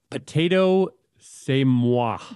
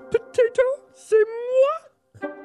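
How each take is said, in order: First: It is said in a plain, normal voice. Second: It is said in a Miss Piggy voice.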